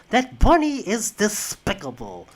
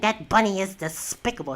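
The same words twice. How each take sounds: First: It is said in a put-on cartoon duck voice. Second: It is said in an ordinary speaking voice. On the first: "he always just spoke like this" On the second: "instead of just saying"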